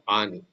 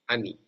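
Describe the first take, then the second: First: The first vowel is full and unhurried. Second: The first vowel is short and hurried. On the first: The speaker calls it wrong. "not ani" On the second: The speaker calls it right. "you have to pronounce it as ani"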